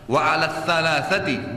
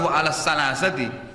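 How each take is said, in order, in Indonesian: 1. Kata ini diucapkan dengan bunyi th yang lembut. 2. Kata ini diucapkan dengan bunyi s yang biasa. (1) "anginnya dikeluarkan, lidah ditekan di atas"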